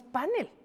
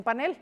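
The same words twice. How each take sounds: First: Panel said as PA-nel, first syllable stressed. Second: Panel said as pa-NEL, second syllable stressed; stress on last syllable of panel. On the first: Showing the host how Mexico says panel, first-syllable stress PA-nel. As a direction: put the beat up front, PA-nel, for "panel". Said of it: "Pero aquí decimos panel". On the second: Showing the host how Spain says panel, final-syllable stress pa-NEL. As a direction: put the beat on the end, pa-NEL, for "panel". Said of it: "porque en España dicen panel". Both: Shown as a demonstration.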